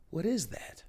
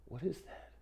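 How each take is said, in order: First: Exclaimed puzzled question; mock surprise. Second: Soft, half-muttered question; hushed puzzled query; quiet aside. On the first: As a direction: react in disbelief at the beard. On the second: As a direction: ask it under your breath at the mirror. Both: Real, not acted.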